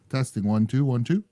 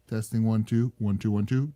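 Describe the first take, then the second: First: The low bass is cut, so it sounds thinner. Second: The full bass is kept, so it sounds fuller. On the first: The speaker calls it wrong. "I put the low cut on" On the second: The speaker calls it right. "if I put it back to the way it was"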